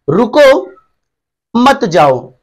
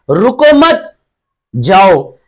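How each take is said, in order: First: रुको alone with rising pitch, a break, then मत जाओ together, falling; "रुको", pause, "मत जाओ" as a command to stay; pause after रुको. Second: "रुको मत" as one raised phrase, pause, falling "जाओ"; pause after मत. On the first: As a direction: split it after रुको, meaning stop. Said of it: "यानी रोका जा रहा है". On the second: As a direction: split it after मत, meaning go. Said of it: "रुकने के लिए नहीं कह रहा है". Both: Shown as a demonstration.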